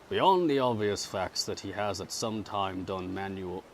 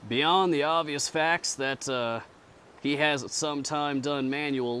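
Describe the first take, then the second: First: It is read in the plain narrator voice. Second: It is read in a distinct character voice. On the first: The speaker calls it wrong. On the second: The speaker calls it right.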